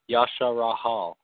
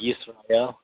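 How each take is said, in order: First: An ah vowel follows every consonant. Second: The consonants are not followed by extra vowels. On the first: The speaker calls it wrong. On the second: The speaker calls it right.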